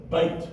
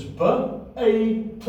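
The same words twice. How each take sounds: First: Said in the usual way. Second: BA-A-T said sound by sound, slowly, with gaps. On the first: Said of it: "So it is ba-a-t". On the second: Shown as a demonstration. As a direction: spell out ba-a-t by its separate sounds. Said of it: "you have the tav at the end".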